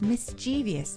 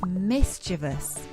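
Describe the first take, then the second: First: It has an extra ee syllable before -ous. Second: It has no extra syllable before -ous. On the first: The speaker calls it wrong. "putting an extra I in there when there isn't one" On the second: The speaker calls it right. "for now, it's mischievous"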